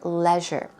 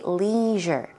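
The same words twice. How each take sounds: First: It is said with a British pronunciation. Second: It is said with an American pronunciation. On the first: "In British English, you would most likely hear leisure" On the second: "In American language, you would say leisure"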